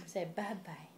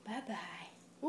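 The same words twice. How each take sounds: First: Said in the usual way. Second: Soft whispered bye-bye. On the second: Shown as a demonstration. Parent whispering bye-bye to the baby. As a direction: breathe the word bye-bye with no voice.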